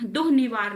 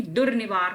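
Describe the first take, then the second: First: दुर्निवार said "duh-nivaar"; breathy h replacing the r in दुर्निवार; "duh" opening on दुर्निवार; wrong first syllable. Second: दुर्निवार said "dur-nivaar"; "dur" opening on दुर्निवार; correct r. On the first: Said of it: "दुर्निवार नहीं". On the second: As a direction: sound the r before n in दुर्निवार. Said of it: "दुर्निवार होता है". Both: Shown as a demonstration.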